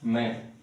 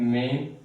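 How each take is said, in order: First: The vowel is a short 'a' sound. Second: The vowel is a long 'ay' sound. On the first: The speaker calls it right. "The correct pronunciation is man" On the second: The speaker calls it wrong. "We pronounce this word as main. That is incorrect"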